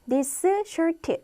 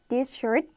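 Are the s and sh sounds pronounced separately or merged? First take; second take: separately; merged. First: The s and sh sounds are pronounced separately. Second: The s sound drops into the sh sound. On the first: The speaker calls it wrong. "This shirt 하지 마시고요" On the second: The speaker calls it right. "하나는 죽는 것입니다"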